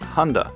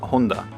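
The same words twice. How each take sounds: First: It is said with an English pronunciation. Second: It is said with a Japanese pronunciation. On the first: It sounds like the Japanese word for soldering iron. The speaker calls it wrong. "The way we pronounce the brand in English sounds like" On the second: It names the car company. The speaker calls it right. "In Japanese, the Honda company is pronounced as"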